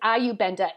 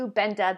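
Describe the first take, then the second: First: The first letter is said like 'eye'. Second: The first letter is said like 'ee'. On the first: The speaker calls it wrong. "I know it says EUBenda if you're in the United States" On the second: The speaker calls it right. "the I is now pronounced an E. EUBenda, that's how you say it"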